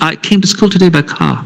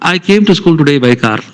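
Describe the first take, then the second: First: It is spoken in a British English accent. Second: It is spoken in an Indian English accent. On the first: "if a Britisher normally will say" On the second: "You can call it Manglish. Indian English"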